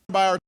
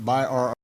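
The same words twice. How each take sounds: First: The two words are said very fast, merged. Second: The two words are said slowly and separately.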